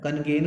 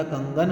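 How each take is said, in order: First: कनगेन with a plain n and an e; wrong pronunciation. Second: कंगन with a nasal ng; correct pronunciation. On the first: Teacher rejects the misspelt word, mispronounced. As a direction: say कनगेन as "kan-gen". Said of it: "कनगेन कुछ नहीं होता". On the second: Teacher corrects the misspelt word, correctly pronounced. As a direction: say कंगन as "kangan". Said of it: "कंगन होता है". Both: Shown as a demonstration.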